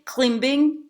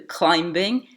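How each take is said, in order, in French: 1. La voyelle est un seul son 'ee' simple. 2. La voyelle glisse de 'ah' vers 'ee'. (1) "les Français diront volontiers climbing" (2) "Il s'agit bien entendu de climbing"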